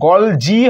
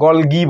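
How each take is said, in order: First: The second syllable begins with a j sound. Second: The second syllable begins with a hard g. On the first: "দেখো গলজি হয়" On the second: "আবার এখানে গও অনেকে বলে"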